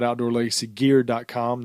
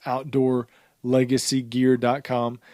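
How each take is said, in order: First: Said in the usual way. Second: Slower, spaced-out web address; slow, careful repeat. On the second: Real, not acted. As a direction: repeat it slowly so listeners catch it. Web address repeated slowly for listeners.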